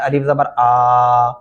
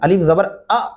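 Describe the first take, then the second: First: The final vowel is stretched out long. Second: The final vowel is cut off with a jerk. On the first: "ये तरीका बिल्कुल गलत है ... जबर वाले लफ्ज़ को कभी भी कतअन नहीं खींच सकते" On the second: "झटके से भी नहीं पढ़ना ... ऐसे नहीं करना, ये गलत तरीका होगा"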